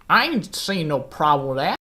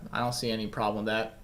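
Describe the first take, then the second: First: It is said in a put-on African American voice. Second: It is said in his normal voice.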